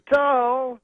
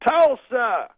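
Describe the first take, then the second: First: Slower, drawn-out high shout; Bill Cosby. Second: High, loud stage shout; Bill Cosby. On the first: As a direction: stretch the syllables and break the word in two. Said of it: "he says it slower". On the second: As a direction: imitate a comedian calling out to the crowd. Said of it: "Then he goes". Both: Retold or imitated.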